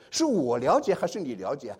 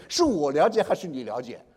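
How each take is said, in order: First: Slow challenge, stress on 我 against 你; retold teacher's slow, pointed question; teacher challenging student. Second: Student throwing it back, 我 stressed against 你; retold retort, punch 我 then fall away on 你了解; rhetorical retort. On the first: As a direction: lean on 我 as the one in authority. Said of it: "是，我是老师". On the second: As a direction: turn the teacher's question back, stressing 我. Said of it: "他反问我".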